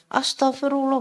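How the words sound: It is said in an angry tone.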